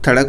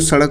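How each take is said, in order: First: The word begins with a lisped th sound. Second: The word begins with a clear s sound. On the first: The speaker calls it wrong. "तुतलाने के कारण भी बोलते हैं थड़क बोलते हैं" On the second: The speaker calls it right. "सड़क को आप स्पष्ट बोलेंगे तो सड़क बोलेंगे"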